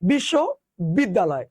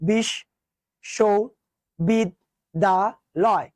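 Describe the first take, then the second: First: It is said quickly in two chunks. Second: It is said slowly in five separate syllables. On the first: "যদি আরো দ্রুত উচ্চারণ করো" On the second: "তুমি উচ্চারণ করো তো"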